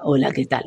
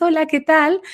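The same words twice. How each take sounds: First: Much lower, softer and opaque; low dull voice. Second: High, disconnected little voice; high thin voice. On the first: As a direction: mumble a dull, dark greeting. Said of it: "tiene la voz difónica". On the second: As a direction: squeak out a tiny high greeting. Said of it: "tiene las vocecitas justamente muy altas, muy agudas". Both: Shown as a demonstration.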